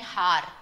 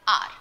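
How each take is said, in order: First: The word starts with an h sound. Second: The word starts with a vowel sound. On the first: The speaker calls it wrong. "we don't say har and har. Yes, we don't say like that. It's wrong" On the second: The speaker calls it right. "The H in R is not pronounced"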